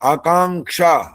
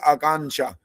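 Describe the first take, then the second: First: The nasal is a velar ng sound. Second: The nasal is not a velar ng sound. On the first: The speaker calls it right. "आकांग न आ रहा है यहाँ पर" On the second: The speaker calls it wrong. "वो तो बोलेगा"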